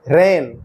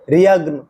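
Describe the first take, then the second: First: No 'g' sound is heard before the 'n'. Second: A 'g' sound is heard before the 'n'. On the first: The speaker calls it right. "ये है" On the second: The speaker calls it wrong. "नहीं है"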